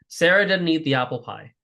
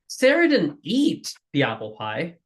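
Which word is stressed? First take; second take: none; eat. First: No single word is given special stress. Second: The word eat is stressed. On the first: A plain statement of fact. "it's a neutral sentence" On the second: She did something else with the pie. "what did she do to the apple pie?"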